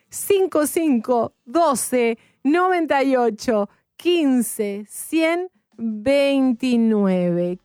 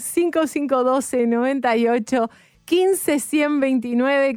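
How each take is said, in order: First: The number is said more slowly. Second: The number is said at normal speed.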